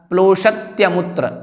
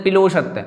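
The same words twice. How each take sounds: First: प्लोषत्यमुत्र with p and l joined as "plo"; careful correct take of प्लोषत्यमुत्र; correct pronunciation. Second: पिलोषत्य with a stray i after p; wrong take of पिलोषत्य, cluster broken by i; common mispronunciation. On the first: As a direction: say प्लोषत्यमुत्र cleanly, no vowel between p and l. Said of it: "इस प्रकार से". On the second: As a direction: mimic the mistake पिलोषत्य, "pi-lo" for "plo". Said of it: "तो वह नहीं बोलना है". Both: Shown as a demonstration.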